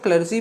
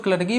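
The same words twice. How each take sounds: First: क्लर्जी said with a j sound; soft j clergy. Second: क्लर्गी said with a hard g sound; hard g clergy. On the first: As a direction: say क्लर्जी with a j, as in jam. (क्लर्जी में ज की ध्वनि) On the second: (क्लर्गी में कठोर ग की ध्वनि) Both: Shown as a demonstration. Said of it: "pronunciation पे कोई ज़्यादा".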